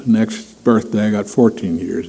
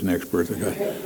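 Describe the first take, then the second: First: Said in the usual way. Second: "Next birthday, I got thirteen" dropped much softer, fading out; fading to near silence. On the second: Shown as a demonstration. Preacher jokes about counting down his years, fading softer. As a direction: let the count of years fade away. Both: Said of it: "I don't know if I'd wanna know".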